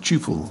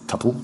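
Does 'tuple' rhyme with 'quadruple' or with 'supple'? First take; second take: quadruple; supple. First: The word rhymes with quadruple. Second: The word rhymes with supple. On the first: The speaker calls it right. "I pronounce it tuple to rhyme with tuple, like quadruple" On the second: The speaker calls it wrong. "I do not pronounce it tuple to rhyme with supple"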